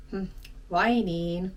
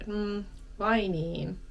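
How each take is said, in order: First: Disappointed. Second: Slow, let-down "Hmm, vai niin?"; disappointed. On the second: Teacher demos a disappointed reply, slow and let-down. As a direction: sigh it out, mildly disappointed. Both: Shown as a demonstration. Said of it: "It sounds a bit disappointed".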